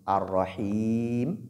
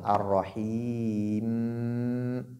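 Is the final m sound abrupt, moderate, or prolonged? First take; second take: abrupt; prolonged. First: The final m is cut off abruptly. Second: The final m sound is prolonged. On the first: "couper complètement le son" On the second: "laisser le son continuer"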